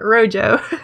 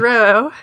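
First: The word is said with an English pronunciation. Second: The word is said with a Spanish pronunciation. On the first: The speaker calls it wrong. "not Rojo" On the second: The speaker calls it right. "it is supposed to be the Spanish color. So it's pronounced Roho"

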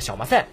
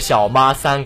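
First: It is said in the local Yancheng dialect. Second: It is said in a forced standard Mandarin style. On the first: This is the usual local word for the undershirt. "我们盐城话叫做小麻塞" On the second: Someone tries too hard to sound standard. "他就读成"

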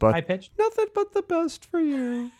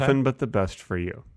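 First: It is said in a high-pitched voice. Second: It is said in a normal voice. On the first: "Can you say it high pitched?" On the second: "Can you say it one more time?"

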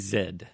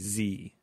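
First: The letter is said the Canadian way. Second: The letter is said the American way.

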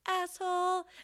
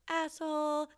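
First: It is said at a middle pitch. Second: It is said at a low pitch.

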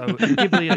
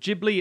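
First: It does not begin like giblets. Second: It begins like the word giblets. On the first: The speaker calls it right. "So Ghibli it is" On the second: The speaker calls it wrong. "I do not like the sound of Ghibli. It sounds like giblets"

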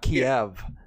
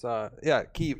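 First: The name is said the Russian way. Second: The name is said the non-Russian way. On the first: The speaker calls it wrong. "not Kiev. Kiev is like how the Russians pronounce Kiev" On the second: The speaker calls it right. "it's, Kiev"

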